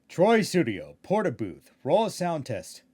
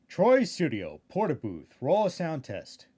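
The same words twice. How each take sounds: The two takes are said the same way.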